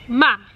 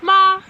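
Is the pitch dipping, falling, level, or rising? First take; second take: falling; level. First: The pitch falls sharply and sounds final. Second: The pitch stays high and level. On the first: "just going down and very like um, final" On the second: "you start at the top. It's like a higher pitched like one tone"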